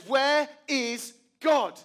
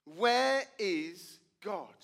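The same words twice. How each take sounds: First: Slow, loud, climbing menace; the third time, give it full weight; pastor's final demand. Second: Slow, drawn-out searching question; stern pastor. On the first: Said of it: "the third time". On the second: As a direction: lean in and ask it very slowly. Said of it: "he says to the boy". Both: Retold or imitated.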